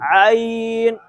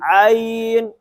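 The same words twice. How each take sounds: First: It begins with a tight sound from mid-throat. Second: It begins with a tight sound from mid-throat.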